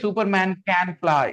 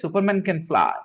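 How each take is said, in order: First: The word 'can' carries strong stress. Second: The word 'can' carries no stress. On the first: The speaker calls it wrong. "Don't say Superman can fly" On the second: The speaker calls it right. "Just say Superman can fly"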